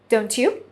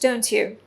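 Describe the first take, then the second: First: The pitch rises at the end of the tag. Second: The pitch falls at the end of the tag. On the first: The speaker is unsure and is really asking. "And when you use the rising tone, you are not sure of the answer" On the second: The speaker is sure and wants agreement. "When you use the falling tone, you're pretty much sure of the statement"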